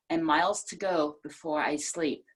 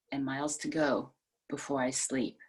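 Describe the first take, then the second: First: Said in the usual way. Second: The line again, lower and quieter; softer, fading repeat. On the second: Shown as a demonstration. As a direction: let the repeat die away softly. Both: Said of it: "a different emphasis".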